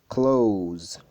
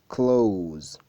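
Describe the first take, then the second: The two takes are said the same way.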